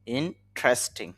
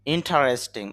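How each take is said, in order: First: Slow "ইন্টারেস্টিং" as in-tres-ting; three-syllable pronunciation. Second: "ইন্টারেস্টিং" in four syllables, in-ta-res-ting; four-syllable pronunciation. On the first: Teacher repeating the corrected word for learners, "ইন্টারেস্টিং" as slow in-tres-ting. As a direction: say "ইন্টারেস্টিং" slowly, with no vowel between t and r. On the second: Teacher reading out a vocabulary word, "ইন্টারেস্টিং" with all four syllables sounded. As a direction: keep the middle "ta" vowel in "ইন্টারেস্টিং". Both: Shown as a demonstration. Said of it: "তবে শুদ্ধ উচ্চারণ হবে".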